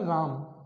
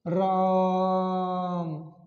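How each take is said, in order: First: It is said plainly at normal length. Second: It is called out loudly and drawn out.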